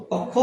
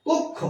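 First: কক্ষ with an open first vowel, "kawk-kho"; mispronunciation shown. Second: কক্ষ softly, as "kok-kho"; correct pronunciation. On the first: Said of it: "কক্ষ হবে না". (কক্ষ-এর প্রথম স্বর খোলা অ) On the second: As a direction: say কক্ষ with closed "o", softer. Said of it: "উচ্চারণ হবে". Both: Shown as a demonstration.

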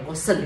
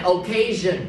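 First: "occasion" mispronounced with a plain S sound instead of ZH; "occasion" as a mistaken "o-kay-sin"; wrong pronunciation. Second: "occasion" with a voiced ZH, "o-KAY-zhun"; correct pronunciation. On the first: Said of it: "không phải là occasion". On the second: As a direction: model "occasion" clearly with a buzzing ZH. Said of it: "Đọc này là occasion". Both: Shown as a demonstration.

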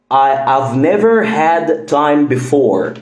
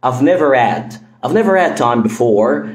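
First: Had said with a full H, slowly; slow textbook sentence; careful. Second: Had as ad, never-ad; quick never-ad time; dropped H. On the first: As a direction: pronounce had with its H. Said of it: "بالراحة هقول". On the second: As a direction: drop the H and link never to ad. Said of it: "طب بسرعة". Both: Shown as a demonstration.

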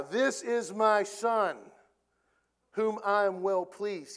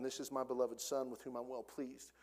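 First: Slow, weighty, proclaiming; voice of God. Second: Said in the usual way. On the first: Pretend. God interrupting Peter from heaven, slow and weighty. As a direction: boom it out slowly like God from heaven. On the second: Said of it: "God says".

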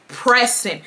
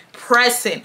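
The two takes are said the same way.

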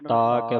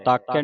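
First: ਤਾਕੈ split as "taa kai"; two separate words. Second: ਤਾਕਿਆ run together as one word; wrong joined reading. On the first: Teacher models ਤਾਕੈ, said as two words. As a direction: hold the first vowel of ਤਾਕੈ, then a separate kai. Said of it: "ਤਾਕੈ ਵੱਖਰਾ ਵੱਖਰਾ". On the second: Teacher shows students the mistake ਤਾਕਿਆ, run together. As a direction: slur ਤਾਕਿਆ into one unit. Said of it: "ਤਾਕਿਆ ਨਹੀਂ ਪੜ੍ਹਨਾ". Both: Shown as a demonstration.

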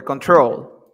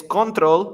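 First: "control" as con-TROL; stress on last syllable. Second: "control" as CON-trol, louder up front; stress on first syllable. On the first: Teacher offering the second option, "control" stressed on TROL. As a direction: put the weight on the end of "control". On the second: Teacher quizzing students, "control" stressed on CON. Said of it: "La fuerza de voz está al inicio". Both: Shown as a demonstration.

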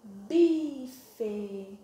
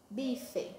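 First: Bife stretched, both syllables held; slowly sounded out. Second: Bife short and softer; read at normal speed. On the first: Teacher reading the word to children, bife long and slow. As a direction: draw out bi, then fe. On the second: Teacher repeating the word whole, bife brief and soft. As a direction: drop to a quick, quieter bife. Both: Shown as a demonstration. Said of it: "a palavrinha que formamos aqui".

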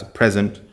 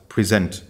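First: "present" with stress on the first syllable, PREH-zent; present as a noun. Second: "present" with stress on the second syllable, pri-ZENT; present as a verb. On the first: Teacher contrasting the two readings of a written word, stressing "present" on the first syllable. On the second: Teacher contrasting the two readings of a written word, stressing "present" on the second syllable. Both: Shown as a demonstration. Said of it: "when to say present or present".

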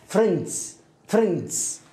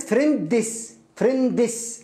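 First: فريندز in one falling syllable, s blended on; corrected pronunciation. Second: فريندس split into "fren-dess", slightly raised; wrong pronunciation demo. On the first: Teacher correcting the wrong version, correct pronunciation. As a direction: say فريندز without any vowel before the final s. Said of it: "لا". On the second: Teacher showing learners what not to say, mispronounced. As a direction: put a vowel before the last s in فريندس. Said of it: "وليست". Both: Shown as a demonstration.

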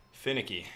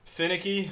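First: Said in the usual way. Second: Finicky? repeated high in disbelief; incredulous echo. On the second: Real, not acted. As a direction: echo Finicky? as a silly word. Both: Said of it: "Who says that, dude?".

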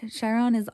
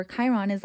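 First: Chiron pronounced SHY-ron; soft SH variant. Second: Chiron pronounced KAI-ron; hard K variant. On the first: Tarot reader tries one pronunciation, Chiron with SH. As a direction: say Chiron with an opening SH. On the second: Tarot reader switches to other pronunciation, Chiron with K. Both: Shown as a demonstration. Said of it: "I don't know if it's".

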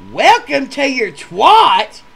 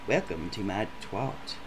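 First: High, loud, slow disbelieving echo; stunned repeat, stretched out loud; incredulous yell. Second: Low, quiet and matter-of-fact; hushed, deadpan date; deadpan quote. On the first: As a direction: shout it back in total disbelief. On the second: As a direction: say it like a dull tour guide. Date's flat announcement. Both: Retold or imitated.

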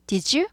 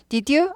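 First: "did you" softened to "dijoo"; 구개음화. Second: "Did you" as "di-dyu", higher, no j sound. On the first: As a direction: slide "did you" into a j sound. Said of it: "부드러운 발음이 되죠". ("did you"를 '디쥬'로 부드럽게) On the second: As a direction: keep the d plain in "Did you". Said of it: "아니고 did you". ("Did you"를 '디듀'로) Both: Shown as a demonstration.

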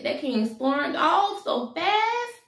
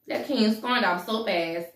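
First: High, drawn-out amazement; dramatic exclamation. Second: Said in the usual way. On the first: A narrator's reading. Storyteller tells how the king left, dramatic exclamation. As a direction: stretch it out and swing up high at the end.

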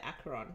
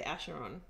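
First: Acheron said as AK-er-on; hard "k" in Acheron. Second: Acheron said as ASH-er-on; soft "sh" in Acheron. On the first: Host copies how the friend says it, Acheron with "k". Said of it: "and you say". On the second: Host shows a friend how they say it, Acheron with "sh". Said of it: "You say it differently to me. I say". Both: Shown as a demonstration.

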